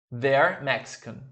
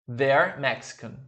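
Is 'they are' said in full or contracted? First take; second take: contracted; contracted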